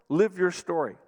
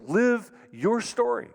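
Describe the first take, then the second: First: Said in the usual way. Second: "Live your story" drawn out slowly and pitched high, each word weighted; slow emphatic exhortation. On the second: Real, not acted. Pastor urging couples to "Live your story", slow and high.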